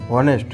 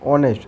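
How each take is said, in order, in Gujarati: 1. આ શબ્દ 'h' અવાજથી શરૂ થાય છે. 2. આ શબ્દ સ્વર અવાજથી શરૂ થાય છે. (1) "બધા શું કહે છે હોનેસ્ટ, એચ બોલે છે આગળ" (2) "બટ આનું રાઈટ પ્રોનાઉન શું છે?"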